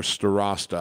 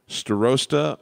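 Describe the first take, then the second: First: Starosta with an open vowel, stuh-RAHS-tuh; alternative pronunciation. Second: Starosta with a long O, stuh-ROHS-tuh; first pronunciation. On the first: Piano teacher offering a student's surname another way, open-vowel pronunciation. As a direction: say Starosta with RAH in the middle. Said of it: "just gonna say 'em both". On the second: Piano teacher trying a student's surname one way, long-O pronunciation. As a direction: say Starosta with ROH in the middle. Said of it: "not sure how you pronounce that". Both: Shown as a demonstration.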